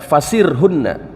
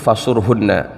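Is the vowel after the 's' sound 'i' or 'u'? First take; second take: i; u. First: The vowel after the s is i. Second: The vowel after the s is u. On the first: "Imam Hamzah membacanya dengan mengkasrohkan shad" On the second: "yang lainnya membaca dengan mendomahkan shad"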